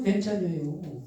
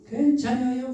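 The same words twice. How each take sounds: First: Said in the usual way. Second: Chungcheong dialect reply. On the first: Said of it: "repeats reassurance plainly". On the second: Acted. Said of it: "충청도 사투리 쓰네 제가".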